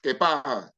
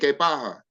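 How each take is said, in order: First: The s sound in pasa is weakened. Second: The same.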